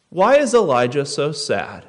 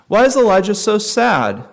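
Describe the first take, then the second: First: Said in the usual way. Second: "Why is Elijah so sad?" higher and louder, pressing on is; emphatic restated question. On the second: Shown as a demonstration. Preacher to congregation, repeating the question with higher, louder emphasis.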